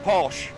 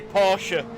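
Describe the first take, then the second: First: The word ends on the 'sh' sound. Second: The word ends with an extra 'uh' vowel. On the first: This is how English speakers say it. The speaker calls it wrong. "when we call it Porsche ... We don't pronounce the E" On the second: This is how German speakers say it. The speaker calls it right. "The Germans say Porsche. ... It ends in an E"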